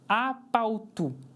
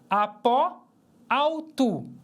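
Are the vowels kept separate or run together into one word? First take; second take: together; separate. First: One word, the first word's final vowel dropped. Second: Two separate words, both vowels pronounced. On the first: "Nós lemos como uma palavra só" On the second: "Apó termina com vogal e autu começa com vogal"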